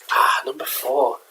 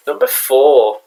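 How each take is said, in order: First: Slow musing. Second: Loud announcement of number four; announcing. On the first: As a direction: savour "number four" slowly, like a mock reveal. Repeats item announcement, second take. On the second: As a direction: call out "Number four" loudly like a show host. Announcing countdown item, first take. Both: Acted.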